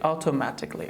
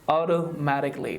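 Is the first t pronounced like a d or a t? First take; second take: t; d. First: The first t sounds like a clear t. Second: The first t sounds like a soft d. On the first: The speaker calls it wrong. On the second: The speaker calls it right.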